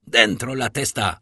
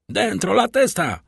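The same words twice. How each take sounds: First: A gruff Italian order barked at the banker's window; commanding bark. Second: Higher and louder, a menacing repeated order; threatening shout. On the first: Rough guard barks at Danglars to get his head in, commanding. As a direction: snap it out like a threat. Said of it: "huknął ktoś nakazująco". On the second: The guard repeats his order to Danglars, a higher, louder menacing shout. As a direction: yell the warning again, harder. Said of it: "powtórzył tenże głos z taką samą groźbą". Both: A narrator's reading.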